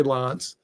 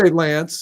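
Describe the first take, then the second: First: "Lance" said like "Lonce", with an ah; "Lance" rhyming with nonce; alternative pronunciation. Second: "Lance" with the a of ants; "Lance" with a short front a; listener's pronunciation. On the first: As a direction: open the vowel of "Lance" to ah. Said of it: "Some, some people say Lance". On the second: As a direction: say "Lance" to rhyme with dance. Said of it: "You say Lance". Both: Shown as a demonstration.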